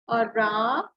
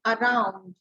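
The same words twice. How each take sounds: First: Around stretched out, "a", then a long "round"; split syllables. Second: Said in the usual way. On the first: Shown as a demonstration. Teacher showing how to say it, around drawn out in syllables. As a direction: sound out around slowly as "a - round". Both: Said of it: "around में हम कैसे बोलेंगे".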